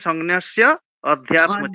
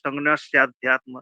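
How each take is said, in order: First: The words are split with a short a sound. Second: The words run together with a long a sound. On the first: "ভেঙে বললে তাহলে" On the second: "একসাথে বললে আধ্যাত্ম ওইটার সঙ্গে হয়ে গেছে"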